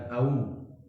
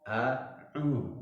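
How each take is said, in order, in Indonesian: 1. Dua vokal itu menyatu menjadi satu bunyi meluncur. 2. Dua vokal itu dibaca sebagai bunyi terpisah. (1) "bukan au" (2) "A langsung u"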